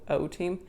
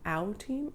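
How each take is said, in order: First: The first word sounds like 'oh'. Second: The first word sounds like 'ow'. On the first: "I pronounce it O" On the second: "Or should it be ow?"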